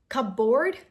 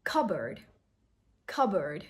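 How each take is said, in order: First: Cupboard as "cup-board", questioning; wrong pronunciation. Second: Cupboard as "CUB-erd"; correct pronunciation. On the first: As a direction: sound the P in Cupboard, rising louder. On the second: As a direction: drop the P in Cupboard, falling. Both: Shown as a demonstration. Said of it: "No P sound".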